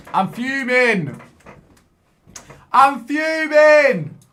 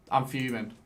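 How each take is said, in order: First: Slow, drawn-out yell, much higher and louder; fuming yell. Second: Said in the usual way. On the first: Real, not acted. Gamer losing to the screen, long furious yell. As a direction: stretch out the fury and bellow it.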